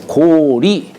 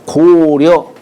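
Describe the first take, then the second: First: The second syllable is pronounced 'ri'. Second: The second syllable is pronounced 'ryeo'. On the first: The speaker calls it right. "리라고 읽어야 돼요" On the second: The speaker calls it wrong. "려라고 읽죠"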